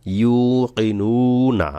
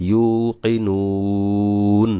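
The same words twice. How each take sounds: First: Drawn-out ইউকিনুনা with the final vowel sounded; ইউকিনুনা stretched, vowel kept at the end; slow recited demo. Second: Very slow ইউকিনুন ending on a closed, held ন; ইউকিনুন with no vowel after the last ন; stop on sakin. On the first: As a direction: recite ইউকিনুনা slowly, giving the last না its vowel. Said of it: "তো দেখুন এখানে". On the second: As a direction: chant ইউকিনুন and stop dead on the silent নুন. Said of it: "এভাবে নুনকে সাকিন করে ধরতে হবে". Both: Shown as a demonstration.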